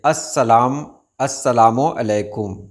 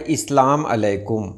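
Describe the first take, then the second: First: अस्सलामु अलैकुम starting "as-sa-laa-mu"; correct greeting. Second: इस्लाम अलैकुम starting "is-laam"; wrong greeting. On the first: Teacher giving the greeting with lam, correctly pronounced. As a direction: say "assalaamu alaikum" for अस्सलामु अलैकुम. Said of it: "लाम के साथ लिखें". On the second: Teacher showing the result of misspelling, mispronounced. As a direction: say "islaam alaikum" for इस्लाम अलैकुम. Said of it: "तो वो हो जाता है". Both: Shown as a demonstration.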